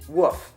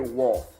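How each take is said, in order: First: The word is said without its L sound. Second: The word is said with its L sound. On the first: Someone else says it this way. The speaker calls it wrong. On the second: This is the standard way of saying it. The speaker calls it right.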